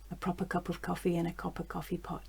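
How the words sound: It is said in quiet voiced speech. "And then quiet speech"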